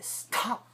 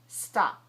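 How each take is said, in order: First: The t has a strong puff of air. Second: The t has no puff of air. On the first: The speaker calls it wrong. "we don't want to say" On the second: The speaker calls it right. "So the S sucks away the air"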